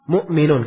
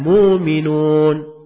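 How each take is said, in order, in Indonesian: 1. Terdengar glottal stop sebelum m. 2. Tidak ada glottal stop; vokal pertama dipanjangkan. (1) "Mu'minun itu agak berat ya diucapkan" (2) "Karena itu dia ringankan"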